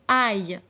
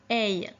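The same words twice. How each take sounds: First: The vowel is an open 'ah' before the glide. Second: The vowel is an 'eh' before the glide. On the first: The speaker calls it right. "A I L se prononçait aïe" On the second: The speaker calls it wrong. "et non pas aïe"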